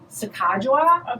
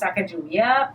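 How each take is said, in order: First: The middle consonant is a soft j sound. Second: The middle consonant is a hard g sound. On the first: The speaker calls it right. "say it again" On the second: The speaker calls it wrong. "I thought it was Sacagawea, but it's not"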